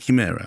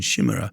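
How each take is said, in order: First: The first sound is a hard C. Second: The first sound is soft, not a hard C. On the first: This is the Italian pronunciation used for the film. "this is a hard C" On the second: This is the familiar English pronunciation. "I've always said chimera"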